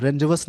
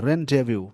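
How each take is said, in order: First: Rendezvous read as spelt, "रेन्डेज़वस" with the s sounded; wrong spelling pronunciation. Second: Rendezvous said "रान-डे-वू", ending on a long vu; correct pronunciation. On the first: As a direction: show the mistake: rendezvous as ren-dez-vus. (rendezvous को गलत पढ़ना, s के साथ) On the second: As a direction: give the right one: rendezvous as rahn-day-voo. (rendezvous का सही उच्चारण, अंत में वू) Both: Shown as a demonstration. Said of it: "rendezvous नहीं पढ़ना है".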